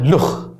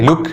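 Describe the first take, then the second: First: The word ends in a raspy kh sound. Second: The word ends in a hard k sound. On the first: "بيقولوا لها لخ" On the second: "كلمه زي لوك"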